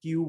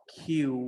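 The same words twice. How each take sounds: First: "কিউ" with no puff of air; wrong, local pronunciation. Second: "কিউ" with a strong puff of air; correct English pronunciation. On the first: Teacher quotes the common mistake, "কিউ" without aspiration. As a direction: say "কিউ" with an unaspirated k. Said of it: "wrong pronounce করে থাকি". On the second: Teacher models the letter Q, "কিউ" heavily aspirated. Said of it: "যেগুলো হবে". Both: Shown as a demonstration.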